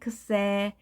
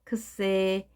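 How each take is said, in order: First: It begins with a voiceless 'ks' sound. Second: It begins with a voiceless 'ks' sound.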